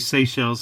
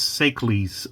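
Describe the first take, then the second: First: The 'ch' is not said as a k sound. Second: The 'ch' is said as a k sound. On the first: The speaker calls it right. "pronouncing this in the obvious way" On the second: The speaker calls it wrong. "I used to call this Seychelles because I also liked Achilles"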